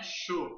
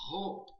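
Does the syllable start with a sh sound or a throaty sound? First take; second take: sh sound; throaty. First: The syllable starts with a soft sh sound. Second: The syllable starts with a harsh throaty sound. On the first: The speaker calls it wrong. "Aqui não é Sho" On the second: The speaker calls it right. "C H O é Ro"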